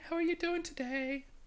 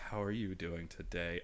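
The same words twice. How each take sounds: First: The voice is bright, bubbly and upbeat. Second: The voice is slow, soft and flirtatious.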